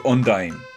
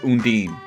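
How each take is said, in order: First: The last syllable sounds like 'dine'. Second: The last syllable sounds like 'dean'. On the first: This is how the speaker has always said the name. "To me, that name is Undyne" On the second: This is how others say the name. "according to everyone else"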